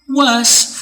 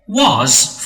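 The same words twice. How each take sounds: First: The word is said in its reduced form. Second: The word is said in its full form. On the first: "for the weak" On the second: "for the strong"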